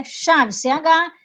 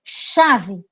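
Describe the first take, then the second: First: "Chave" said slowly, then the letters C H named one by one; slow spelling. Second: Said in the usual way. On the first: Shown as a demonstration. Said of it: "eu pronuncio como se fosse um X".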